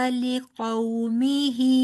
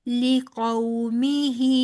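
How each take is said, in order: The two takes are said the same way.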